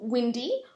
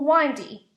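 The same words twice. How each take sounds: First: The first syllable rhymes with 'win'. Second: The first syllable rhymes with 'wine'. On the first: It describes breezy weather. "can describe the weather" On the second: It describes a road with many bends. "or a road"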